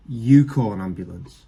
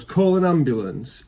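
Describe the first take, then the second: First: You punched, said lower and flat; stress on You. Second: Said in the usual way. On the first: Shown as a demonstration. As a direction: throw it back, hitting You. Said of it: "I'm looking right back at 'em and go". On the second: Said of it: "runs out of a train station and goes".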